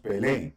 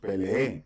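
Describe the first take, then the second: First: The final vowel is short but stressed. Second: The final vowel is drawn out long. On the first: The speaker calls it right. "Decimos pelé, pero estamos como acentuando esta E" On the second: The speaker calls it wrong. "No la está haciendo más larga, ¿verdad? Porque no, no decimos peleé"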